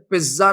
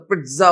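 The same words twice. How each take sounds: First: "پزا" with a plain z, no t sound; wrong pronunciation. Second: "پزا" as "pitza", with a crisp t before the z; correct pronunciation. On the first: Teacher quoting a corrected English word, mispronounced with plain z. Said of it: "پزا نہیں ہوتا". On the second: Teacher mimicking someone correcting English, stressed correct pronunciation. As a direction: say "پزا" with a firm ts in the middle. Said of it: "پزا ہوتا ہے". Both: Shown as a demonstration.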